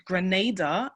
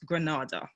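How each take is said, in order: First: Grenada with a long A, as gruh-NAY-duh; long first A. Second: Granada with an open AH, as gruh-NAH-duh; mispronounced name. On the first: Guest correcting how viewers say the island, Grenada with long A. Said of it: "The first A is a long vowel". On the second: Guest showing viewers the wrong island name, Granada with open AH. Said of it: "it is pronounced Grenada and not Granada". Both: Shown as a demonstration.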